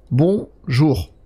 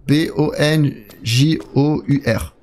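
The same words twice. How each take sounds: First: Said in the usual way. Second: B O N J O U R spelled out slowly, one letter at a time. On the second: Shown as a demonstration. Streamer spelling out a chat greeting, slow letter by letter. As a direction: read each letter of Bonjour separately, slowly. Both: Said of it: "Point d'exclamation".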